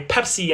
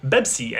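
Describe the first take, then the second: First: The word begins with a P sound. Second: The word begins with a B sound. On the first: This is the original borrowed form. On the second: This is the modern Arabic adaptation.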